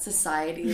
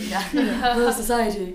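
First: It is said in the speaker's plain accent. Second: It is said in a British accent.

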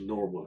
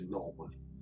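First: It is said with an American accent. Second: It is said with a non-American accent.

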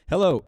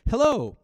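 First: It is said in a serious, grave tone. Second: It is said in a bright, cheerful tone. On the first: "No, that's too serious" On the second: "No, that's too bright"

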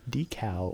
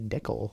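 First: The word is said the usual non-Canadian way. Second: The word is said the Canadian way.

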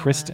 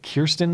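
First: The name begins with the sound 'Kris'. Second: The name begins with the sound 'Kir'. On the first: The speaker calls it wrong. "not Kristen" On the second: The speaker calls it right. "I want to say it correctly"

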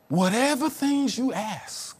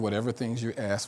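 First: It is delivered in a dramatic, dynamic voice. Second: It is read in a plain, flat voice. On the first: The speaker sounds spiritual. "I can say it in a real spiritual way" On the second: The words are simply read out. "I could just read"

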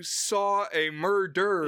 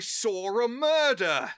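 First: No r after saw; murder ends with an r. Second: An r links saw to a; murder ends without r. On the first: The speaker calls it right. "no, you saw a murder" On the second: The speaker calls it wrong. "when the word ends with an A sound normally, they'll add an R"

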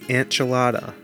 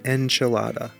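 First: The first syllable sounds like 'ant'. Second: The first syllable sounds like 'en'. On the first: The speaker calls it wrong. "You're pronouncing it like A-N-T" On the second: The speaker calls it right. "It's an enchilada"

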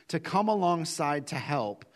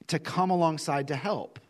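No difference in how they are said.

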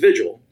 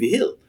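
First: The name is said with an English pronunciation. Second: The name is said with a Spanish pronunciation. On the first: This is how the family said it back home. "I was always Vigil" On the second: This is how Spanish-speaking relatives said it. "a lot of relatives that just spoke Spanish. And everybody started saying Vigil"

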